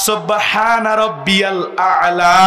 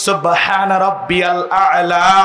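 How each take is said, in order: Both takes have the same delivery.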